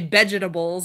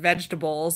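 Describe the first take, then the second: First: The first sound is not a real V. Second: The first sound is a clear V. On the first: This imitates a foreign accent. "you can't say V words, you know, like sh- she'll say vegetables" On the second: This is the standard way to say it. "instead of vegetables"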